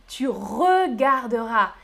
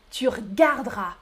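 First: Regarderas slowly with every E, re-gar-de-ras; full written form. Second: Regarderas squeezed to r'gard-ras; spoken short form. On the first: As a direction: sound each syllable of regarderas. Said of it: "Tu regarderas à l'écrit". (« regarderas » lentement, re-gar-de-ras) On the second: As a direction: drop both Es in regarderas. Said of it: "On coupe le E". (« regarderas » sans les E, r'gard-ras) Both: Shown as a demonstration.

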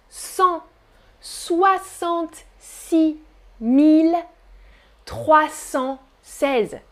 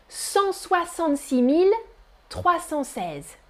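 First: Each part drawn out slowly; very slow dictation. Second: Said in the usual way. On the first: Shown as a demonstration. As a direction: stretch every chunk slowly. (dictée très lente) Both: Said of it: "repeating number for class".

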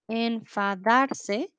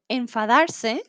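First: Enfadarse stretched out very slowly, syllable by syllable. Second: Said in the usual way. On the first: Shown as a demonstration. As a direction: draw out enfadarse slowly for learners. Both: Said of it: "teacher models the verb".

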